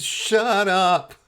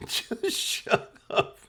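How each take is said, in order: First: Much higher, strained imitation of the cousin; a cousin's high-pitched plea; squeaky shut up. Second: Whispered, much higher and very slow, through laughter; begging him to stop while cracking up; whispered shut up. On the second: Retold or imitated. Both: Cousin hushing him at funeral.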